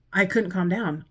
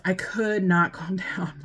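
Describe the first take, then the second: First: Said in the usual way. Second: Whispered through a laugh, I could not calm down. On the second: Real, not acted. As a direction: breathe it out with a little laugh.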